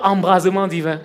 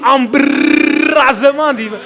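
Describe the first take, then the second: First: The r in embrasement is short and plain. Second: The r in embrasement is long and rolled. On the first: The speaker calls it wrong. "on ne dit pas embrasement divin" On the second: The speaker calls it right. "On dit embrasement divin. Dis à ton voisin, embrr"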